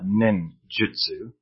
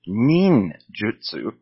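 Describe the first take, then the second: First: The first vowel is a short, lax 'ih'. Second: The first vowel is a tense 'ee' sound. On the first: The speaker calls it wrong. "It is not ninjutsu" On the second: The speaker calls it right. "Ninjutsu is the correct way"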